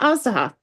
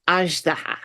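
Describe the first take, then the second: First: The middle consonant is a plain Z sound. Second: The middle consonant is a soft ZH sound. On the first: The speaker calls it wrong. "Not Azdaha" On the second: The speaker calls it right. "It's that same zh"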